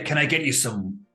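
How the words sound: It is said in a put-on character voice.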